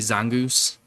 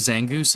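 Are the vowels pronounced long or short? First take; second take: long; short. First: The vowels are pronounced long. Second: The vowels are pronounced short. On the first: The speaker calls it wrong. "He always tried to like use the long vowels for things" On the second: The speaker calls it right. "instead of"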